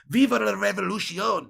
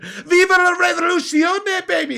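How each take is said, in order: First: It is said more calmly and pleasantly. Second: It is shouted loudly and harshly.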